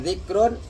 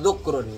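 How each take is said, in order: First: The first vowel is an i sound. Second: The first vowel is a u sound. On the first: It is remembrance done by tongue or heart. "bisa dibaca zikrun" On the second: It is remembrance done by the heart only. "bisa dibaca zukrun"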